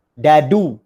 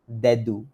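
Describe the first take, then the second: First: "Dadu" loud, with a heavy hard d; too-hard d. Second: "Dadu" gently, with a light d; touch the d's of "Dadu" lightly; correct light d. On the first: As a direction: punch both d's in "Dadu". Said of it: "Salah tu sebenarnya". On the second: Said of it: "kena sini lah". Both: Shown as a demonstration.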